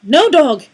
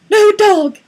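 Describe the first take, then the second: First: It is said in a normal voice. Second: It is said in a high, strained voice.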